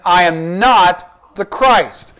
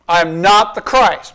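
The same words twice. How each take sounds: First: Very slow, each word weighed, falling hard on Christ; emphatic denial. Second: Said in the usual way. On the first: Shown as a demonstration. Preacher reading John's denial to the congregation, slow and emphatic. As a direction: lean on every word of "I am not the Christ", slow and final. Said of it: "It's a, an emphatic statement". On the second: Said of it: "adamant about who he was not".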